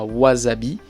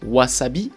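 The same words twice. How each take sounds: First: The middle consonant is a voiced Z sound. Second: The middle consonant is a clear S sound. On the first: The speaker calls it wrong. "et pas wasabi" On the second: The speaker calls it right. "c'est vraiment un S, comme dans wasabi"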